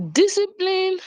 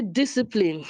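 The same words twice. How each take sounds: First: Discipline pitched up high in incredulity; mock disbelief. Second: Said in the usual way. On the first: Repeating the word in disbelief to the audience. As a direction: echo the word as if you can't believe it. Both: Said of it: "I feel like".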